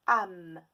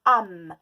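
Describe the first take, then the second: First: Said in the usual way. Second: Âme dit très fort; mot appuyé. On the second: Shown as a demonstration. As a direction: claironner âme. (mot crié) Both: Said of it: "dans le mot".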